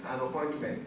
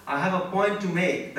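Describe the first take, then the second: First: Said in the usual way. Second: "I have a point to make" said slowly and deliberately; emphatic. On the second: Real, not acted. Lecturer insisting to trainees on why this matters, "I have a point to make" slow and emphatic. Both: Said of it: "That's the reason why I'm emphasizing on this".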